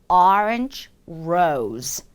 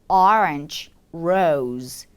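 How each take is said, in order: The two takes are said the same way.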